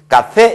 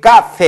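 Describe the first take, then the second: First: The stress is on the last syllable. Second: The stress is on the first syllable. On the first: The speaker calls it right. "카페 이렇게 됩니다" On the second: The speaker calls it wrong. "규칙은 여기 카페 해야 되는데"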